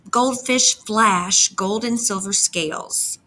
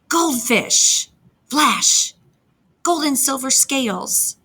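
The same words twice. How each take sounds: First: It flows smoothly without pauses between the words. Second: It is broken by pauses after goldfish and flash. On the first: It sounds like telling someone something. "read this just like we're talking to each other" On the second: The voice moves the way a fish swims. "I'm going to read it with the line breaks"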